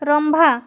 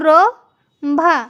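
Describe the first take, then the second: First: An 'm' sound joins the two syllables. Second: The syllables are said separately with no 'm'. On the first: The speaker calls it right. "ତ ଉଚ୍ଚାରଣ କେମିତି କରାଯିବ" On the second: The speaker calls it wrong. "Direct କେବେ ଯୁକ୍ତାକ୍ଷରକୁ ର ଭା ଏମିତି ଉଚ୍ଚାରଣ କରାଯାଏ ନାହିଁ"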